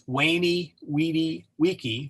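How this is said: It uses classical Latin pronunciation.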